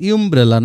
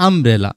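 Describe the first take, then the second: First: ইউমব্রেলা with a you sound at the start; the mistaken ইউমব্রেলা, starting with yoo; wrong pronunciation. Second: আমব্রেলা opening on a short um sound; the right আমব্রেলা, open um at the start; correct pronunciation. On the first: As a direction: say ইউমব্রেলা opening on a clear yoo. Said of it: "উচ্চারণটা কিন্তু ইউমব্রেলা না". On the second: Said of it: "উচ্চারণটা হলো আমব্রেলা". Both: Shown as a demonstration.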